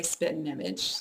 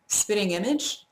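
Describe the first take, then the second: First: "spitting image" run together as spit'n-image; fast-speech spitting image. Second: Said in the usual way. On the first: Shown as a demonstration. Speaker showing fast speech, spitting image as spit'n image. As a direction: swallow the vowel and g, "spit'n image". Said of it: "if I were speaking fast". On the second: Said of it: "But if I were speaking fast".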